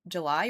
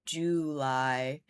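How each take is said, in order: First: JULY said as juh-LIE; quick, unstressed first syllable in JULY; reduced first vowel. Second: JULY said as JOO-lie; slow, rounded OO opening JULY; full first vowel. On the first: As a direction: let JULY's first syllable shrink to "juh". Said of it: "do you say July or". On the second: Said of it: "or do you say July?". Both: Shown as a demonstration.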